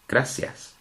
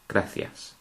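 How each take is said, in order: First: The c is said with an s sound. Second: The c is said with a th sound. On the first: This is how it is said in the Canary Islands. The speaker calls it wrong. "in the Canary Islands, they would pronounce gracias as" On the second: This is how it is said in mainland Spain. The speaker calls it right. "we are going to pronounce it as gracias ... Always as a th"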